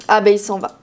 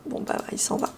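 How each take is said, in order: First: Said in the usual way. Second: Whispered aside under her breath; murmured repeat, voiceless. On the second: Real, not acted. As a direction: breathe Bon, bah, il s'en va as a voiceless murmur.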